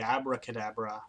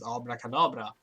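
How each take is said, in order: First: It is said with an American pronunciation. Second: It is said with a Swedish pronunciation. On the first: "at least American English, it would be" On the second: "like spell in Swedish is"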